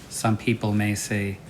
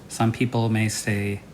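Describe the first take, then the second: The two takes are said the same way.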